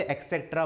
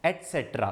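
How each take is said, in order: First: एटसेटरा said with a "k" as "eksektra"; common mispronunciation. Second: एटसेटरा said "et-setra", with a "t" and no "x"; correct pronunciation. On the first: Teacher showing how many children say it, mispronouncing एटसेटरा as "eksektra". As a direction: mispronounce एटसेटरा as "ek-sek-tra". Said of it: "बहुत सारे बच्चे एटसेटरा बोलते हैं". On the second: Teacher giving students the right form, एटसेटरा pronounced "et-setra". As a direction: pronounce एटसेटरा clearly as "et-SET-ra", falling. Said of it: "जो सही pronunciation है इसका". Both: Shown as a demonstration.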